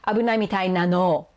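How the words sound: The voice falls at the end, like a statement. She is stating that someone seems in danger.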